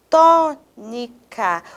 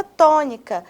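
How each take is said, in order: First: TÔNICA split slowly, tô-ni-ca, stress on TÔ; syllable by syllable. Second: Said in the usual way. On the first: Shown as a demonstration. Teacher showing the tonic syllable, TÔNICA slowly split with strong TÔ. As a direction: spell out TÔNICA in slow separate syllables, first one strongest. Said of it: "O tó não é mais forte". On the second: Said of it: "Olha só essa palavra".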